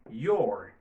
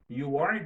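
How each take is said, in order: First: The two words merge into one syllable. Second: Both words are said fully and separately.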